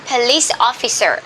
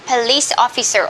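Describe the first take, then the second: No difference in how they are said.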